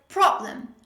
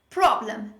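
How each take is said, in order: Both takes have the same delivery.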